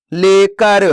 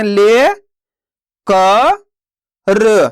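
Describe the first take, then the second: First: Said in the usual way. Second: ले, क, र each spoken apart with pauses; teacher sounding out ले क र slowly; syllable by syllable. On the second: Shown as a demonstration. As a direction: sound out ले क र one syllable at a time. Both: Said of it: "तो मिलके बन जाएगा".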